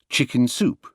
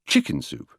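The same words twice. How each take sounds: First: It uses the usual British stress pattern. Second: It uses the American stress pattern. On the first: This is the usual British way. "the more usual accents in British English" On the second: This is the American way. "how they are said in America"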